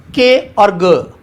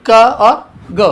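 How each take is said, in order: First: "के और ग" named as letters, drawn out slowly; spelled out slowly. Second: "क और ग" said as bare sounds k and g, drawn out; letter sounds, slow. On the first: Teacher to students, naming the letters slowly. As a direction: say "के और ग" as the letter names, stretched. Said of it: "one eighty degree पर है". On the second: Teacher to students, sounding out the consonants slowly. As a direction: give "क और ग" as the short sounds, slowly and clearly. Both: Shown as a demonstration.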